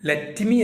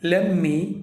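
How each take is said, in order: First: Both words are said fully and separately. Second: The two words are run together as one. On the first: The speaker calls it wrong. "ലെറ്റ് മീ അല്ല" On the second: The speaker calls it right.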